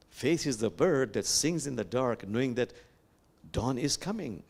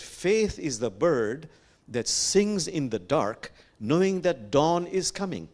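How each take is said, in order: First: Said in the usual way. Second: Slow, weighty recital with stretched key words; lifted, ringing stress on DAWN; emphatic verse recital. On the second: Acted. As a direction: proclaim the verse phrase by phrase. First recital of quoted verse.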